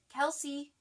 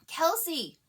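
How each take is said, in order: First: It is called timidly and faintly. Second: It is an almost hysterical scream.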